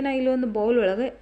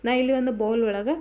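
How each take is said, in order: Both takes have the same delivery.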